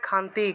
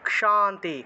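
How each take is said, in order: First: The word begins with a plain kh sound. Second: The word begins with a k plus retroflex sh. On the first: The speaker calls it wrong. "বাংলায় বলে খান্তি" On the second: The speaker calls it right. "এটা উচ্চারণ হবে ক্ষ, ক যুগ মূর্ধন্যস্ব"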